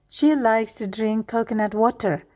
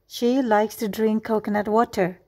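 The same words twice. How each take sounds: The two takes are said the same way.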